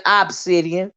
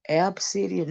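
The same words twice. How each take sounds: First: "obsidian" opened with a clear "ahb" sound; corrected pronunciation. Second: "obsidian" opened with a short "ab" sound; misheard pronunciation. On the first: Shown as a demonstration. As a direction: correct it firmly: "obsidian" starting "ob", not "ab". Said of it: "No, I'm saying obsidian". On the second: Retold or imitated. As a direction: say "obsidian" softly as "absidian", as misheard. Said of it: "I thought Miss Olivia said".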